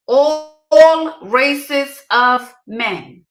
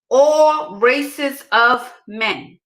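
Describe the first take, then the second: First: "All races of men" stretched very slowly and louder; drawn-out emphatic repeat. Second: "All races of men" said very slowly, each word weighted; slow emphatic repeat. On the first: Driving it home to the ladies, very slow and louder. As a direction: drag out "All races of men" for full weight. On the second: Telling the ladies again, slowly and with weight. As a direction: lean on "All", drawing every word out. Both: Shown as a demonstration. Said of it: "Let me say that part again".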